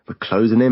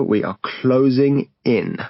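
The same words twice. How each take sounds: First: Said in the usual way. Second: "We are closing in" slowed and spelled out word by word; slow emphatic repeat. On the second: Acted. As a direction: drag it out, each word weighed.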